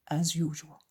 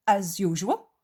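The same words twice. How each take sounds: First: Said in the usual way. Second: "As usual" rising at the end as a question; "As usual" lifted into a query; questioning tune. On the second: Acted. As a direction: ask "As usual" with a swooping upward tune. Judas asks, Jesus echoes as statement.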